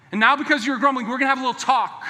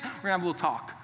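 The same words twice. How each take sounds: First: Louder, higher stern parent warning; the dad calling the kids in for a talk. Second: Said in the usual way. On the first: Acted. Father warning his sons they're in trouble, loud and stern. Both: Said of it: "You ever use that language with your kids?".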